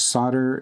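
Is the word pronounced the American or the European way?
American. It is said with the American pronunciation. "is the American pronunciation"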